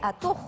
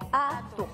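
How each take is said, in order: First: The stress is on the last syllable. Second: The stress is on the first syllable. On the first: The speaker calls it wrong. "no sería atu" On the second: The speaker calls it right. "tienen sonido grave. O sea, ... sería atu"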